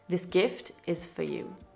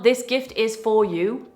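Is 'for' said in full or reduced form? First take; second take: reduced; full. First: The word for is reduced to a schwa. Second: The word for is said with its full vowel. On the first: The speaker calls it right. "For becomes f" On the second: The speaker calls it wrong. "Not ... Sounds robotic"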